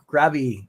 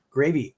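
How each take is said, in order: First: "Gravy" with a short A, like GRAV-ee; short-A pronunciation. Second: "Gravy" with a long A, like gray-vee; long-A pronunciation. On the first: Streamer correcting his try at a surname, "Gravy" said as GRAV-ee. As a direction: say "Gravy" as GRAV-ee, rhyming with savvy. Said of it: "I'll say Gravy". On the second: Streamer trying out a member's surname, "Gravy" said as GRAY-vee. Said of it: "I think I'm pronouncing it right". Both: Shown as a demonstration.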